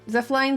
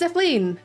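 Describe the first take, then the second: First: The last syllable does not rhyme with queen. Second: The last syllable rhymes with queen. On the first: This is how others usually say the name. The speaker calls it wrong. "the most common um like pronunciation people tend to go for" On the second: This is the speaker's own way of saying the name. The speaker calls it right. "It rhymes with queen"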